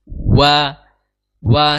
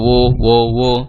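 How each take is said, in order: First: The vowel opens to a clear a sound. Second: The vowel stays rounded like an o sound. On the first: The speaker calls it right. "Dimonyongkan terlebih dahulu kemudian dibuka. Wa wa seperti itu" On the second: The speaker calls it wrong. "Jangan sampai wo wo wo ya"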